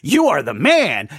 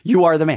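First: It sounds admiring, like praising someone. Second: It sounds accusing, like naming a guilty person.

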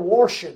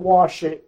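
First: It is said with a regional r sound. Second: It is said in a plain standard way.

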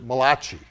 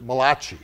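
First: The name sounds like an Italian word. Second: The same.

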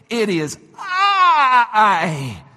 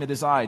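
First: It is said strongly and with confidence. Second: It is said quietly and calmly. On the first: The speaker calls it right. "I want to say it more like this" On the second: The speaker calls it wrong. "I said that very calmly"

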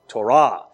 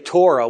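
First: It is said with the Hebrew pronunciation. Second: It is said with the English pronunciation. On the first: The speaker calls it right. "What would they say?" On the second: The speaker calls it wrong. "somebody speaking Hebrew wouldn't say Torah"

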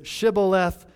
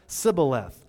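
First: The word begins with an sh sound. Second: The word begins with a plain s sound. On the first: "the Ephraimites did not pronounce shah" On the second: "They pronounced it sa"

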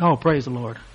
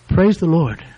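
First: It is said in a casual, offhand way. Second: It is said in a sincere, earnest way.

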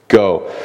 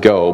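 First: It is said forcefully, as an exclamation. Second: It is said plainly, without force.

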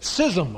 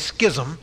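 First: The word begins with a plain s sound. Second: The word begins with an sk sound. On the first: This is the dictionary form. The speaker calls it right. "it should be schism, according to the Webster's Dictionary" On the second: This follows the Greek original. The speaker calls it wrong. "I always say schism, because the Greek pronunciation is schematso"

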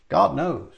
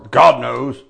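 First: It is said in a calm, sincere tone. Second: It is said in a bitter, vengeful tone. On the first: Leave the matter in a higher hand. The speaker calls it right. "I don't mean it that way. I'm just telling you" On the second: Wrongdoers will get what they deserve. The speaker calls it wrong. "they say it with bitterly or even vengeance"

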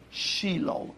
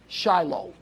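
First: It is said with a Hebrew pronunciation. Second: It is said with an American English pronunciation. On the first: The speaker calls it right. "Try pronouncing it in its Hebrew form" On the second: The speaker calls it wrong. "We know you're Americans. We know you're from the West"

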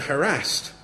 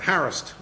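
First: The word is said in the current way. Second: The word is said in the older way.

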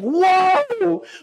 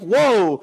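First: It is said with an outpouring of pain. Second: It is said casually, without strong feeling.

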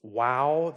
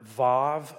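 First: The word begins and ends with a w sound. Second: The word begins and ends with a v sound. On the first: This is the older pronunciation of the letter. "the older way of saying the letter" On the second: This is the modern pronunciation of the letter. "a more modern Hebrew way of saying the letter"

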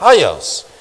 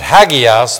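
First: The G sound is very soft. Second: The G sound is hard. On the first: The speaker calls it right. "The G is very soft" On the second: The speaker calls it wrong. "Some pronounce it hagios"

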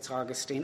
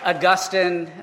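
First: The name is said the Latin-like way. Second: The name is said the more intellectual-sounding way. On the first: The speaker calls it right. "but I think it's Augustine" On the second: The speaker calls it wrong. "I know Augustine sounds more intellectual"

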